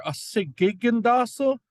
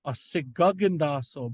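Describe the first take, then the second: First: "sigigindaso" with an ee-like i in the second syllable, si-gi-gin-da-so; sigigindaso demo. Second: "sigagindaso" with an open ah in the second syllable, si-ga-gin-da-so; sigagindaso demo. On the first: Teacher contrasting the two spellings, saying the i version clearly. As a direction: say "sigigindaso" clearly, i after the first g. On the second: Teacher contrasting the two spellings, saying the a version clearly. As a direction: say "sigagindaso" clearly, ah after the first g. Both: Shown as a demonstration. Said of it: "There's pretty similar".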